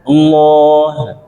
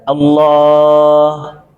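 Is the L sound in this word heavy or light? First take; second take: heavy; light. First: The L is pronounced thick and dark. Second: The L is pronounced thin and clear. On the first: "itu tebal tuh" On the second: "Kalau tipis"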